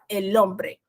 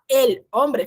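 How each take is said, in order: First: The two words run together as one unit. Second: The two words are said apart, not joined. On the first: The speaker calls it right. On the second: The speaker calls it wrong. "Em vez de falar el hombre"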